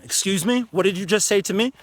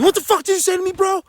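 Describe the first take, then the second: First: Firm but calm. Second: High, loud furious yell; aggressive yell. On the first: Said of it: "you can still keep a tone". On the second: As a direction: explode at them, high and loud. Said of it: "you don't have to be". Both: Shown as a demonstration.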